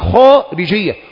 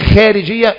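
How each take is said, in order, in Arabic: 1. صوت kh ثقيل ومفخَّم. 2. صوت kh خفيف ورقيق. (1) "فخم الخاء" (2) "مش خارجيه"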